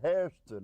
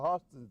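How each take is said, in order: First: The first vowel sounds like 'air', with an r. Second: The first vowel sounds like 'aw', without an r. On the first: This is how northerners said the name. "we said Hairston up there, you see, like Yankees" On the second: This is how the family itself said the name. "they they were Hostons"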